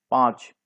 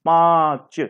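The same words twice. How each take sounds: First: Said in the usual way. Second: पाँच with a long drawn nasal vowel; slow teaching model of पाँच, final च released separately; nasalised vowel demonstration. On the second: Shown as a demonstration. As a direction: stretch पाँच through nose and throat. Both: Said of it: "नाक की और गले की सहायता".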